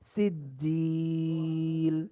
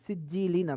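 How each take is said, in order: First: The last vowel is stretched, ending on l. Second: The word ends with an -in sound. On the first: "দুই জেরে থামলে সাকিন করতে হয়... তিন আলিফ টেনে দেবো।" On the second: "লাম দুই জের লিন, সিজ্জিলিন আছে।"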